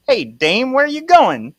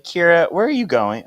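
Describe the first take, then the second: First: Put-on high, loud old-fashioned fellow; [name]'s old-time voice. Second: Said in the usual way. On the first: Calling after Kira as she walks away, hammed-up old-time voice. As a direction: put on a hammed-up man from another era. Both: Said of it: "how did he talk?".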